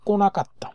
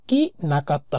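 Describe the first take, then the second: First: কোনা কাত্তা with "ko", ko-na-katta; কোনা কাত্তা, ko-na-kat-ta, said as the right reading; correct pronunciation. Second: কি না কাত্তা with a "ki" start, shown as the mistaken form; কি না কাত্তা, ki na katta, marked as the wrong reading; wrong pronunciation. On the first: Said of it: "হয় হচ্ছে কোনা কাত্তা". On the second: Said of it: "হয় না". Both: Shown as a demonstration.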